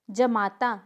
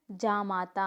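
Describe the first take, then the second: First: जमाता with short first a; incorrect pronunciation. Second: जामाता lower and slower, long "jaa"; correct pronunciation. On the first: Teacher showing a mistake, जमाता with short "ja". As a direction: say जमाता as ja-maa-taa. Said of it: "कुछ नहीं होता है". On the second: Teacher correcting the class, जामाता with long first vowel. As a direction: say जामाता as jaa-maa-taa. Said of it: "होता है". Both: Shown as a demonstration.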